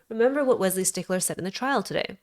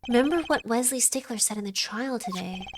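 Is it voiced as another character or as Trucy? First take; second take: another character; Trucy. First: It is said in another character's voice. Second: It is said in Trucy's voice.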